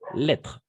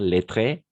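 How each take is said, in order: First: The final vowel is left silent. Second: The final vowel is pronounced aloud. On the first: The speaker calls it right. "On ne prononce pas le E à la fin" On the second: The speaker calls it wrong. "On ne prononce pas le E à la fin. Pas lettré"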